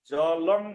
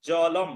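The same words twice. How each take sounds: First: জলং ending in "ng"; wrong pronunciation. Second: জলম ending in m; correct pronunciation. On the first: Teacher shows what it won't be, wrong pronunciation. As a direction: say জলং as "jalong". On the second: Teacher corrects it, correct pronunciation. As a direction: say জলম as "jalam", lips closed. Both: Shown as a demonstration. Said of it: "জলং হবে না".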